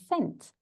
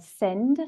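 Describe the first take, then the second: First: "sent" ending on a voiceless t; deliberate "sent" with a sharp t ending; crisp final T. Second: "send" with a voiced d at the end; deliberate "send" with an audible final d; clear final D. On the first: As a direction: finish "sent" on a clear t, not d. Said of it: "we have a D sound, and sent". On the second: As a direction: sound out the d ending of "send". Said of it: "we have a D sound". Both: Shown as a demonstration.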